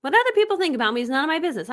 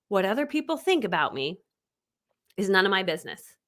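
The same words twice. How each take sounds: First: Rattled off fast in one breath; brisk, lively repeat; quick recap. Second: Spaced out, slightly low, for note-taking; deliberate, paused delivery; measured statement. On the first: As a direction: run it through quickly without pausing. Same statement rattled off again. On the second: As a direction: dictate it phrase by phrase with a pause. Dictating a statement to write down. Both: Shown as a demonstration.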